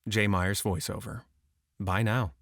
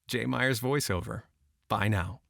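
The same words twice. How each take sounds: First: It is read dead flat and neutral. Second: It is read with a smile only. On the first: "Number two was dead flat" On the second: "Number three was just the smile"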